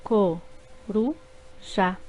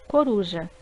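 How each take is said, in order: First: Co-ru-já drawn out slowly in three beats; slow syllables. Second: Said in the usual way. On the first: Shown as a demonstration. Teacher slowly splitting coruja into syllables. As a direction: stretch co-ru-já one syllable at a time. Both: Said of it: "formadas por três sílabas".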